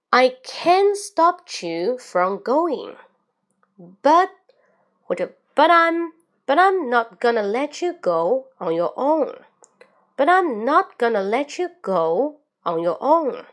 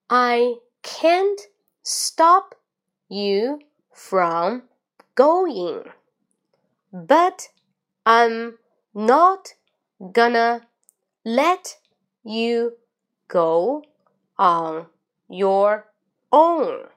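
First: The sentence is read at a medium pace. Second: The sentence is read at a slow pace. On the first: "第二遍，注意连读，语音语调像波浪一样。" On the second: "最后慢中快我再来一遍，跟我一起读"

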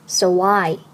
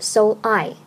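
First: The words are linked with a w sound between. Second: The two words are said separately without linking. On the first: The speaker calls it right. "读作so why" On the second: The speaker calls it wrong. "不读so I"

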